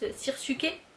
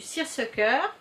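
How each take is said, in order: First: The word has a French pronunciation. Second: The word has an English pronunciation. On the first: "je crois qu'en français, je l'ai entendu dire autrement" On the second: "en anglais, moi je dirais que c'est du seersucker"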